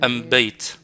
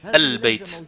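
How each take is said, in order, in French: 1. L'article se prononce am. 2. L'article se prononce al. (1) "Ils disent « am » quelque chose" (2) "Ça veut dire « al-bayt »"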